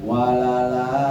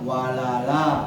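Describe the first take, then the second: The two takes are said the same way.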